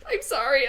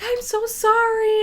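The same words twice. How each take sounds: First: Mildly weepy retold apology; sheepish, slightly high, teary reply; tearful apology. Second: High, slow pleading apology; drawn-out, high-pitched mock apology; apologetic kid. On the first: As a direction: imitate apologizing through tears. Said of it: "I just bawled my eyes out". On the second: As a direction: imitate a kid gushing an apology. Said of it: "the original kid comes back and he's like".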